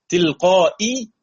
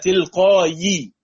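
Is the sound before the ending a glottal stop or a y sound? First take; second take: glottal stop; y sound. First: The word has a glottal stop before the ending. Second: The word has a y sound before the ending. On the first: "تلقائي ها تحولت إلى" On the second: "تحولت إلى تلقائي ووقفنا عليها فصارت ياء ساكنة"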